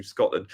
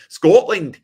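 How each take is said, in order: First: Said in the usual way. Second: High, loud Scottish burst; Scottish accent. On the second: Shown as a demonstration. Streamer taking a viewer's request, loud Scottish accent. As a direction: exclaim it in a put-on Scottish accent. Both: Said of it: "do Scotland".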